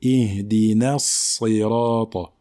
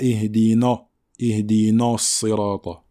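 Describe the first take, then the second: First: Slow "Ihdina Sirata" with a light "na"; thin Nun. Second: "Ihdina" with a heavy, dark "na"; emphatic Nun, wrong. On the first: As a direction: keep "na" thin before the heavy S in "Ihdina Sirata". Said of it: "la lettre Nun est une lettre amincie". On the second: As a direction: let the Sad darken "na" in "Ihdina Sirata". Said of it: "il ne faut pas emphatiser le Nun". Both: Shown as a demonstration.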